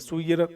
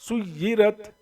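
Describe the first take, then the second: First: The y sound is said lightly, not doubled. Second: The y sound is pressed strongly and doubled. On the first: The speaker calls it wrong. "सुयिरत नहीं" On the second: The speaker calls it right. "ताकत से मिला"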